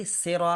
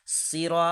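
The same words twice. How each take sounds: First: সেরা with thin s and e vowel; mispronounced সেরা, light s instead of heavy; wrong light sin. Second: সিরা with heavy s, "seeraw"; emphatic Arabic s in সিরা, long i; correct sad. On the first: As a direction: say সেরা as "sera". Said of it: "তাহলে সিন হয়ে গেল". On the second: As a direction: stretch সিরা, rounded vowel at the end. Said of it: "যদি বলি". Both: Shown as a demonstration.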